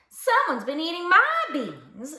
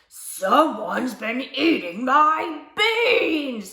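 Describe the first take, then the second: First: It is said in a mild, medium voice. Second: It is said in a deep, gruff voice.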